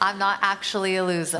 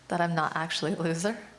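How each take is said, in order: First: It is said louder than before. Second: It is said at a normal, quieter volume.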